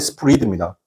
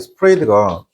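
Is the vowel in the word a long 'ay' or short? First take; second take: short; long ay. First: The vowel is a short clipped sound. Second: The vowel is a long 'ay' sound. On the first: The speaker calls it right. "지금 발음이 스프리드입니다" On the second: The speaker calls it wrong. "여러분께서 어 스프레이드가"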